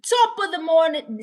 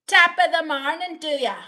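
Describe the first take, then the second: First: Hammed-up Irish greeting, pitched high and loud; attempted Irish. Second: High, loud, fast attempt at Irish gone Scottish; Irish turning Scottish. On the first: Streamer failing at an Irish greeting, attempted Irish accent. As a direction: have a go at a bad Irish accent. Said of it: "See, I can't do it". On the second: Streamer retrying Irish greeting, accidental Scottish accent. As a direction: botch an Irish greeting so it lands in Scotland. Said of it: "now it's like Scottish".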